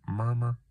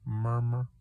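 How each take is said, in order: Both takes have the same delivery.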